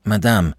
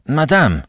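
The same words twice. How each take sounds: First: Said in the usual way. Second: Name cried out much higher; louder, higher urgent call. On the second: Acted. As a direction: cry her name in alarm. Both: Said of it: "he panted".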